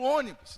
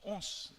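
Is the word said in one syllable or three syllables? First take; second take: three syllables; one syllable. First: The word is said fully in three syllables. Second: The word is squeezed into one short syllable. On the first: "É o ônibus. Então a gente resume" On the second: "Só que a gente fala rápido"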